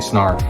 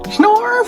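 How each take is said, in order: First: It is said in a plain, normal voice. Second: It is said in a put-on character voice. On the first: The speaker calls it wrong. "Just can't say Snarf" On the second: The speaker calls it right. "Gotta say it like that"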